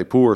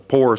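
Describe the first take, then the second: First: "Poor" with an OO vowel; rich person's pronunciation. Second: "poor" said like "pore"; Southern "poor", rhyming with "door"; poor person's pronunciation. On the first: Author showing how a rich person talks, standard pronunciation. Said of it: "sounds like a rich person". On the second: Author showing how a poor person would say it, Southern pronunciation. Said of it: "what a poor person would say". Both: Shown as a demonstration.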